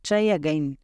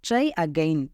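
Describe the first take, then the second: No difference in how they are said.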